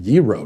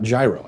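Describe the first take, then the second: First: "gyro" as YEE-roh; correct pronunciation. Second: "gyro" as JAI-roh; wrong pronunciation shown. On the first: Host learns what to say, YEE-roh. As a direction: open "gyro" on a Y sound. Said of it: "what I'm supposed to be saying". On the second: Host names the old mistake, JAI-roh. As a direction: open "gyro" on a hard J sound. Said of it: "I've been saying gyro this whole time". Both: Shown as a demonstration.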